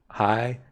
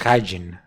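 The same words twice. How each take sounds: First: The second syllable carries strong stress. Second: The second syllable carries no stress. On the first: The speaker calls it wrong. "I was saying hygiene by putting an emphasis to the second part of the word" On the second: The speaker calls it right. "it doesn't have any emphasis at all. It's hygiene, and that's it"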